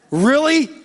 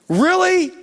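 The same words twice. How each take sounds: First: Mild exasperation. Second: Stronger exasperation. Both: Retold or imitated. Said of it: "he never just goes".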